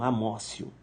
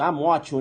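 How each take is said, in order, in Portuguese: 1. A consoante do meio é um som parecido com s. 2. A consoante do meio é um som de t simples. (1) "a pronúncia é amócio" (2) "escreve amótio"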